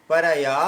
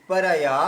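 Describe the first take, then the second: Both takes have the same delivery.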